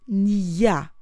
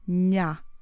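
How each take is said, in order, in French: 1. Un son y séparé suit le n. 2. Un n doux passe directement à la voyelle. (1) "On ne prononce pas nia. On n'a pas de son y" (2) "on prononce directement nya"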